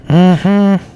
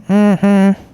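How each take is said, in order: No difference in how they are said.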